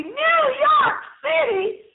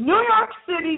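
First: High, drawn-out shout of excitement; slow, high-pitched, over-the-top cheer; thrilled exclamation. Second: Said in the usual way. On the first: Real, not acted. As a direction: belt out the city name slowly, way up high. Repeats city name in excited exclamation.

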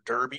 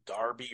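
First: Said in the usual way. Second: Derby said as DAR-bee; derby rhyming with Barbie; British pronunciation. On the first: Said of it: "I think we say derby here". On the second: Shown as a demonstration. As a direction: say derby with an AR in the first syllable. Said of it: "Maybe it's derby there".

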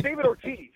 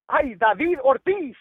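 First: "David Ortiz" the English way, DAY-vid or-TEEZ; American pronunciation. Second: "David Ortiz" said the Spanish way, Dah-VEED or-TEES, slow; Spanish pronunciation. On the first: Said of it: "no, it's". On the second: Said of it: "you're not gonna say". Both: Shown as a demonstration.

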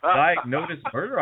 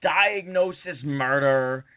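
First: Diagnosis said as "diag-NODE-is"; mispronounced title. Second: Said in the usual way. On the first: Retold or imitated. Confused guest repeating his credit, Diagnosis as "diag-NODE-is". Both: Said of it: "he also pronounced it Diagnosis".

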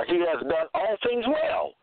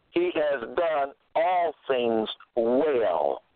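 First: Said in the usual way. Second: Slow, measured weight on "all things"; stress on ALL THINGS. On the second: Shown as a demonstration. Preacher making listeners get that, stress on "all things". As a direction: draw it out, leaning on "all" in "all things". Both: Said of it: "And get that, all things".

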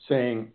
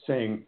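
Both takes have the same delivery.

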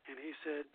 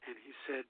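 Both takes have the same delivery.

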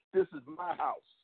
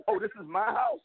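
First: Lightly voiced trash talker claiming the field; taunting opponent. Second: A sneering mock of the boast, rising at the end; mocking the taunt. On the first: Retelling the opponent's touchdown taunt, mock boast. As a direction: mimic the rival's boast, much higher and slow. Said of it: "I heard him score and say". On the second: Scoffing at the rival's claim on the home field, mock sneer. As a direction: scoff at it in disbelief. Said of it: "you're coming into my house and you're saying".

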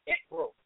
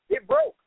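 First: Lightly voiced child, higher; a touch of a kid shrugging it off; mild child's voice; mock child. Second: Mock child's whine, much higher and louder; imitating a child's high whine; high whiny child. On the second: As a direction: play a kid whining an excuse. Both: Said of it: "children come to you all day".

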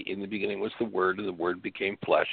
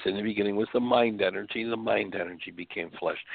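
First: Said in the usual way. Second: The word "mind" lifted and leaned on, "mind energy" rising; stress on mind. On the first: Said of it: "do not say". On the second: Shown as a demonstration. Host rewording the Bible verse for his listeners, leaning on "mind". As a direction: lean into "mind" as the corrected word. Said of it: "It says".

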